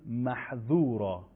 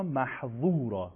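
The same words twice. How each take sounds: First: Slow "محذورا" with a light, thin dh between the teeth; dhal sound. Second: Slow "محذورا" with a heavy, thick ظ in place of ذ; emphatic za sound. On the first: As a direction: say "محذورا" slowly, ذ as a soft English "th" in "this". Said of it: "با دالزالی که دیروز خوندیم". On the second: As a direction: say "محذورا" slowly, its middle consonant full and dark. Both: Shown as a demonstration.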